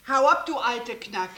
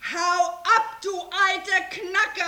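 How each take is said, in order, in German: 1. Er wird monoton gesagt, ohne viel Gefühl. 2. Er wird energisch gesagt, mit starkem Gefühl.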